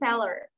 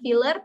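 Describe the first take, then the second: First: The first vowel is an 'e' sound. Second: The first vowel is an 'i' sound. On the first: The speaker calls it right. "tapi feller" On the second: The speaker calls it wrong. "bukan filler"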